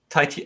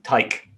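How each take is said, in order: First: The name is said as two syllables, like lychee. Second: The name is said as one syllable, like bike. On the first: The speaker calls it right. "I think it's Tai Chi ... like lychee" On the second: The speaker calls it wrong. "I always used to call it um Tyke"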